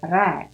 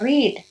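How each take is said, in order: First: It is said the past-tense way. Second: It is said the usual present-tense way. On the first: The action happened in the past. "karena ini bentuk lampau, pengucapannya read" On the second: The action happens now or usually. "Biasanya kita baca read gitu ya"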